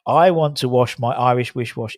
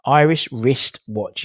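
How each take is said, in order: First: WRISTWATCH slurred into "wish wash"; tongue-twister slip. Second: Slow, separated "Irish wristwatch"; careful articulation. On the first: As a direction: trip on "Irish wish wash", sh replacing st. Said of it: "It's the wish, but it's the wish". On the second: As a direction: sound out every consonant in "wristwatch". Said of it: "it's that wristwatch bit". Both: Shown as a demonstration.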